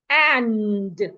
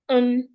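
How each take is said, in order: First: Full vowel with the final d sounded. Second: Reduced vowel with the final d dropped. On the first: "The strong form of A and D is and" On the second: "you take away the d at the end and just say un"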